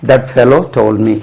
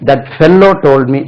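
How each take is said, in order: First: Fellow with one short L; correct pronunciation. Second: Fellow said fel-lo, with doubled L; wrong pronunciation. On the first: Teacher gives learners the corrected sentence, fellow with a single L. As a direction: say fellow lightly as FEL-oh, slow sentence. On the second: Teacher warns learners with a mistaken example, fellow with long L. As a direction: hold the L too long in fellow. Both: Shown as a demonstration. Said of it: "சொல்லக்கூடாது".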